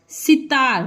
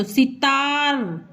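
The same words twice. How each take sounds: First: Said in the usual way. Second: "सितार" slowly, the आ held very long; drawn-out, open-mouthed. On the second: Shown as a demonstration. ("सितार" में ता को मुंह खोल के खींचें) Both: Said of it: "जब पूरा मुंह खोल के बोलेंगे".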